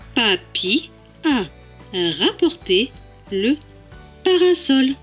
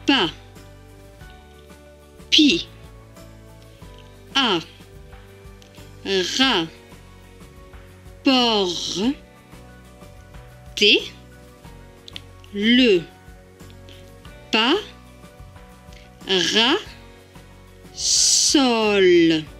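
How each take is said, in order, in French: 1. Elle est lue fluidement, à une vitesse normale de parole. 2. Elle est lue très lentement, syllabe par syllabe. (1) "on va le lire normalement" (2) "tout doucement"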